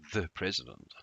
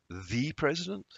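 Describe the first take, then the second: First: The word "the" is short and weak. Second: The word "the" is long and forceful.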